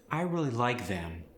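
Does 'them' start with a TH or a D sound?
TH. The word them starts with a TH sound.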